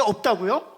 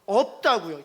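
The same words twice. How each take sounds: First: "없다고요?" loud with a rising end; rising challenge. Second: "없다고요" loud with a falling end; firm answer. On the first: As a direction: quiz the crowd with "없다고요?". ("없다고요?" 끝을 올려 크게 되묻기) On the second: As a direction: settle it with "없다고요". ("없다고요" 끝을 내려 단호하게) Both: Shown as a demonstration.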